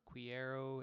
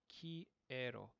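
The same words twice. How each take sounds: First: It begins with a KW sound. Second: It begins with a plain K sound. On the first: The speaker calls it wrong. "It's not quiero" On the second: The speaker calls it right. "the Q U makes a K sound in Spanish"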